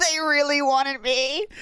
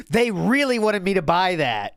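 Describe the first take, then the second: First: High, slow sing-song mockery; mocking. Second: Said in the usual way. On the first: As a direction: drawl it out like a taunt. Mocking the streamer's words.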